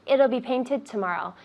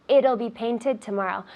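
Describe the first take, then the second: Both takes have the same delivery.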